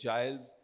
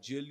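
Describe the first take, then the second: First: The name rhymes with "miles", with a long vowel. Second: The name rhymes with "hill", one short vowel. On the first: "you can pronounce it as Giles" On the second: "you can pronounce it as Jill"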